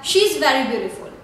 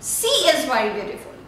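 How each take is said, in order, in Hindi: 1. पहला शब्द 'sh' ध्वनि से शुरू होता है। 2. पहला शब्द 's' ध्वनि से शुरू होता है। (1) "there is a word that she is very beautiful" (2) "here you are mispronouncing the word she. She means ocean"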